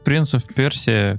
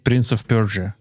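First: Persia is said the Russian way, 'Persii'. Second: Persia is said the English-like way, 'Perzhi'. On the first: The speaker calls it wrong. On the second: The speaker calls it right.

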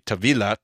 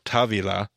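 First: The stress is on the second syllable. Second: The stress is on the first syllable. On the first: The speaker calls it right. "It's supposed to be Tavilah T'Shuvah" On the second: The speaker calls it wrong. "because I always go Tavilah"

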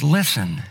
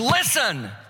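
First: It is said gently, with warmth and affection. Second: It is said sharply, as a stern warning.

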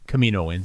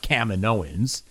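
First: The place name Kamino is kept unchanged inside it. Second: The place name Kamino sounds changed inside it. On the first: It follows the place name directly. The speaker calls it right. "it's obviously Kaminoans" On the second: It departs from the place name. The speaker calls it wrong. "not Kaminoans"

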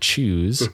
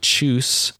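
First: The final sound is a buzzing Z. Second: The final sound is a hissing S. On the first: "instead of a Z sound" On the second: "as a S"

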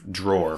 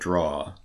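First: The word is said in a general American accent. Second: The word is said in a Boston accent. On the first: "drawer for those people who are not from the region" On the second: "You're Boston"

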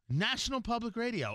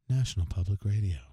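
First: It is said in his normal radio voice. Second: It is said in a put-on NPR voice.

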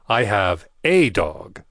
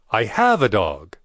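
First: The word 'a' is stressed. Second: The word 'have' is stressed.

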